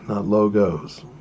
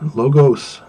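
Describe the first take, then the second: First: It is pronounced as the plural of logo. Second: It is pronounced as the rhetoric term logos. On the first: It refers to company brand symbols. "We're not talking Nike, Coca-Cola" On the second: It refers to logical reasoning in an argument. "Logos refers to the logic or reasoning of an argument"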